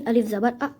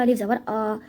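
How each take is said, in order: First: अ clipped short and quick in अलिफ ज़बर अ; quick short vowel. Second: आ stretched long at the end of अलिफ ज़बर आ; wrong drawn-out vowel. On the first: Teacher shows students the correct quick reading, vowel short. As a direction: read the अ fast with no stretch. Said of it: "इस तरीके से इसको जल्दी पढ़ना होता है". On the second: Teacher demonstrates the mistake to students, vowel stretched long. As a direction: drag out the आ the wrong way. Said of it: "ऐसे नहीं". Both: Shown as a demonstration.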